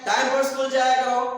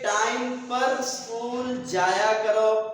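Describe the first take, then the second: First: It is said in a harsher, commanding tone. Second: It is said in a calm, advising tone. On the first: It is a firm instruction, not advice. "अपना लहजा बदल कर कहूं" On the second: It is friendly advice. "नसीहत है"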